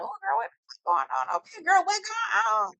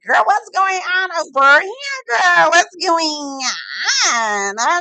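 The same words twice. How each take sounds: First: High, hushed mock eavesdropper; high-pitched, softly nosy "ooh girl" voice; nosy guests. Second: High, loud, drawn-out mock wail; loud nosy guests. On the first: Guests catching wind of an argument, nosy high voice. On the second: Guests hungry for gossip, hammed-up nosy wail. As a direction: stretch it out in a hammed-up high holler.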